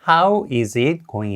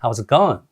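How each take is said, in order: First: 'How' and 'is' are said as separate words. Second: 'How' and 'is' are joined into one syllable. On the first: The speaker calls it wrong. "이 아니라" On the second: The speaker calls it right. "How와 고에 강세를 주면서"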